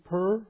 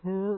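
First: It sounds like the word purr. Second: It is shifted partway toward a standard vowel. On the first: "before it would have just been poor. So everyone, is that something a cat does?" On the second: "He's come around a little bit poor"

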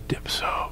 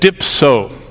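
First: The word is said quietly and softly. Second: The word is said loudly and forcefully. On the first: The speaker calls it right. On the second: The speaker calls it wrong.

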